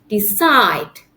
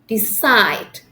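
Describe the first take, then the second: The two takes are said the same way.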